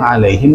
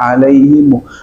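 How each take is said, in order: First: The word ends with a closed 'him' sound. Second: The word ends with an added 'mu' vowel. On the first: "Ada beberapa qiraat yang alaihim" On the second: "dibaca alaihimu"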